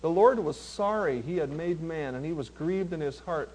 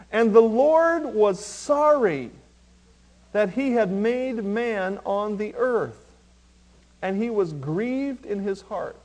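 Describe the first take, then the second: First: Low, hushed verse reading; reflective rereading. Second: Slow, weighty verse reading; solemn scripture reading. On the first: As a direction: read it softly and let it sink in. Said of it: "read them again real slow and let it sink in". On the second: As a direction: read the verse slowly, with weight. Verse read out, later repeated softer. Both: Shown as a demonstration.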